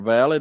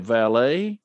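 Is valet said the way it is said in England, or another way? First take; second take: England; another way. First: The word is said the way it is in England. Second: The word is said in a non-English way.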